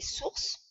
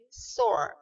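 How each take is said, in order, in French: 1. Le mot est prononcé à la française. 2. Le mot est prononcé à l'anglaise. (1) "en français source" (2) "mais en anglais source"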